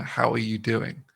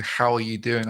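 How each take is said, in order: First: Slow formal greeting. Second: Said in the usual way. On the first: Shown as a demonstration. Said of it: "more than a". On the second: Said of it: "if someone was to say to you".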